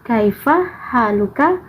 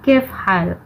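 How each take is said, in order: First: The greeting is said in full standard form. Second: The greeting is said in a clipped colloquial form. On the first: This is the standard form taught at school. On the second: This is the everyday Saudi way of saying it. "menjadi amiyahnya itu menjadi kef hal"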